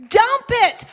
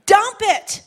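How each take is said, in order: First: Higher, louder full shout of dump it; shouted command. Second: High, loud call to dump it; firm command. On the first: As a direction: yell it out to the whole church. Repeated as a shout. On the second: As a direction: drive it home to the crowd. Preacher urging, then repeats louder. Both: Acted.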